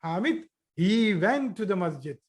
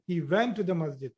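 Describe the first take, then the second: First: "went" punched and falling; teacher demo of emphasis; emphatic. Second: Said in the usual way. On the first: Shown as a demonstration. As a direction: stress on went. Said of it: "I would say". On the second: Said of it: "many times we say".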